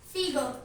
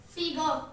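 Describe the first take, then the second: The two takes are said the same way.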